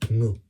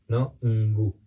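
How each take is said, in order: First: The n and g merge into one sound. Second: The n and g are pronounced as separate sounds. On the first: The speaker calls it right. "Es un sonido único" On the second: The speaker calls it wrong.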